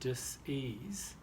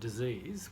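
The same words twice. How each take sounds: First: It is said slowly, split into two parts. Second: It is said quickly as one word. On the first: It names a lack of ease. "slow it down and say dis-ease" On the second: It names an illness. "when you say it quickly, it sounds like a word, one word"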